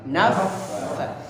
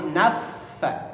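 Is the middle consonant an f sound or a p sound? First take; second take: f sound; f sound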